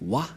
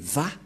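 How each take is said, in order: First: The syllable begins with a W sound. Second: The syllable begins with a V sound. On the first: This is the common but inaccurate reading. The speaker calls it wrong. "C'est pourquoi les gens disent Wa. Mais en fait, ce n'est pas Wa la vraie prononciation" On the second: This is the traditional reading. The speaker calls it right. "mais Va pour les Juifs"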